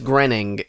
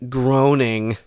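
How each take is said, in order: First: The first syllable sounds like 'gren'. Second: The first syllable rhymes with 'groan'. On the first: The speaker calls it right. "I think it's Grenning" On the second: The speaker calls it wrong. "I think it's not groaning"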